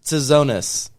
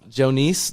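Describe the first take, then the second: First: The surname begins without a 'j' sound. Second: The surname begins with a 'j' sound. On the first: The speaker calls it wrong. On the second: The speaker calls it right. "Pretty close"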